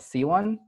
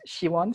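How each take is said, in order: First: The name begins with a plain 's' sound. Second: The name begins with an 'sh' sound. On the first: The speaker calls it wrong. "which is wrong pronunciation" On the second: The speaker calls it right. "in Korean, it's Shiwon, so it's like a she sound"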